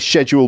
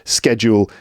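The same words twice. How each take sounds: First: It is said with a British pronunciation. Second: It is said with an American pronunciation. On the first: "I say schedule because I'm from the U K, that's British English" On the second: "schedule in American English"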